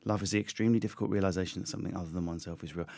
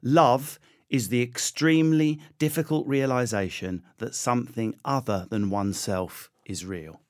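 First: Fast, softer, lower run-through; quick repeat. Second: Slow, measured quote reading; slow recitation. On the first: Guest repeating his quote, fast and low. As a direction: rattle the quote off quietly. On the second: Guest presenting his favourite quote, slow and measured. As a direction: recite it deliberately, letting each phrase land. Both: Real, not acted.

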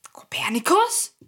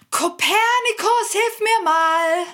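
First: Questioning call. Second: High, slow shout for help; shouting for the cat to come help; calling out. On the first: Calling again, no answer. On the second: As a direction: call up the stairs for him. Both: Acted.

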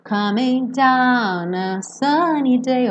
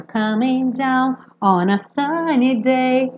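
First: DOWN A emendado, "dauna", cantarolado; ON A disfarçado. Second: ON A dito inteiro depois de DOWN; ON A audível. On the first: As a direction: engula o ON, ligando DOWN a SUNNY. (DOWN A SUNNY DAY lento e ligado) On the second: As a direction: separe DOWN e articule ON A, devagar. (DOWN, ON A SUNNY DAY cantarolado) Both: Shown as a demonstration. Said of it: "Mas tem o on a".

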